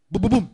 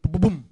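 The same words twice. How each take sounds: First: Loud, punched בובום like a pounding heart; heartbeat thump. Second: Said in the usual way. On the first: Retold or imitated. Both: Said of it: "הלב שלו מתחיל לעשות לו".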